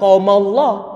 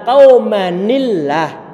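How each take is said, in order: First: The words merge with no linking ni sound. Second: A linking ni sound joins the two words. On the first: The speaker calls it wrong. "Dibaca bukan qaumallah" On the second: The speaker calls it right. "tapi adalah qaumanillah"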